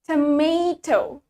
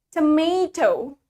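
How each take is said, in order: Both takes have the same delivery.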